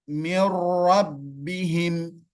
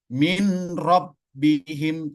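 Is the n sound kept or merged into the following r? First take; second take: merged; kept. First: The n merges into a doubled r sound. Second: The n is heard clearly before the r. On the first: The speaker calls it right. "Tapi langsung ke huruf ro" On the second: The speaker calls it wrong. "Jadi tidak dibaca min rabbihim, tidak"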